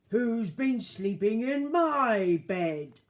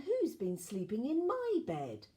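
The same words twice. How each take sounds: First: The voice is big, deep and gruff. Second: The voice is softer and quieter. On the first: "said in a big gruff voice" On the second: "said in a quieter voice"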